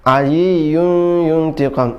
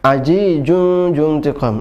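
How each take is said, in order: First: The consonants are said with a y sound. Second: The consonants are said with a j sound. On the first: "zai menjadi ya" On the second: "ada juga menjadi jim"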